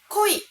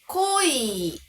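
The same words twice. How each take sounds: First: It uses the standard careful pronunciation. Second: It uses another casual spoken pronunciation. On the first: This is the form for formal situations. "本当は濃いが正解なんですが" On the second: Many people say it this way in real speech. "リアルな発音では濃いとか濃いと言っている人が多い"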